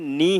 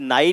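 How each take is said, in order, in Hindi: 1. स्वर की ध्वनि लंबी 'ee' जैसी है। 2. स्वर की ध्वनि 'ai' जैसी है। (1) "नी है" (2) "ये नाई नहीं है"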